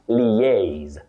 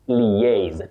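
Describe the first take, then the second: The two takes are said the same way.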